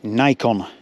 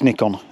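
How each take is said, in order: First: Nikon is said the American way. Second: Nikon is said the English way.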